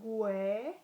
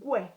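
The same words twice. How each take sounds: First: The u and e are said as separate sounds. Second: The u and e blend into one sound. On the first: The speaker calls it wrong. "rather than saying" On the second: The speaker calls it right. "we combine the sound with the U and the E"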